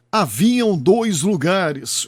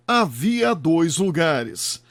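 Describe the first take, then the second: First: "Haviam dois lugares" dragged out, "Haviam" stressed; slow wrong example. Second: Said in the usual way. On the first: Shown as a demonstration. Narrator demonstrating a common mistake, slowly and deliberately. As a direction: lay out the error "Haviam" slowly, word by word. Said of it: "O correto é havia dois lugares". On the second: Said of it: "O correto é".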